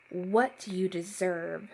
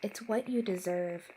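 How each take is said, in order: First: Slow, mildly menacing challenge; deep yelling voice. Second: Said in the usual way. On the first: A narrator's reading. Sinister voice on the phone answering, mildly yelled. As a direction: throw it back slowly, a restrained yell. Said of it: "the deep voice yelled at me". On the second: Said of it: "I said into the phone".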